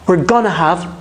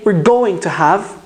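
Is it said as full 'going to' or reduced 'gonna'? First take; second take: reduced; full. First: 'Going to' is squeezed into one reduced 'gonna'. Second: Each word of 'going to' is said in full. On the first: "a lot of native speakers use gonna" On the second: "I did not say we're going to have"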